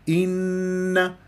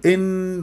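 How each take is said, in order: First: The opening is full, with a complete nasal n. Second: The opening glottal stop is clipped and rushed. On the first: The speaker calls it right. "هكذا النون المشدد غنة أكمل ما تكون من غير نبر" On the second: The speaker calls it wrong. "تختلسها تقول إن، وهذا أيضا خطأ"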